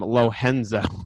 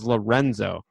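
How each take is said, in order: First: The name is said in a Brazilian style. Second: The name is said in an Italian style. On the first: The speaker thought he was Brazilian. The speaker calls it wrong. "I assumed he was Brazilian, and I started calling him Lohenzo" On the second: He is Italian. The speaker calls it right. "my name is Lorenzo"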